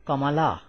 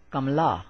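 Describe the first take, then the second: First: "Kamala" in three syllables, middle a sounded; theoretical full reading. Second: "Kamala" squeezed to "Kam-la"; two syllables, "Kamala" as "kamlaa"; practical reading. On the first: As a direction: say "Ka-ma-la" with every vowel voiced. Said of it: "Theoretically, this word, this word should be read like". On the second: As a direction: drop the middle a in "Kamala", m straight into l. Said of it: "but in practice, this word is read like". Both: Shown as a demonstration.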